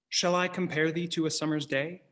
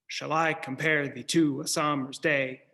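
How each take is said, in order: First: It is read with natural speech rhythm. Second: It is read with a strict da-DUM beat.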